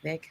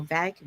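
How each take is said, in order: First: "vague" said with a long ay, like "vayg"; second pronunciation attempt. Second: "vague" said with a short a, like "vag"; unsure pronunciation. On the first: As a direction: say "vague" to rhyme with plague, softly. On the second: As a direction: say "vague" to rhyme with bag. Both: Shown as a demonstration. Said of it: "I don't know how you pronounce".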